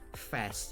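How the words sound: It is said in an American accent. "if you go to the U S, you would say"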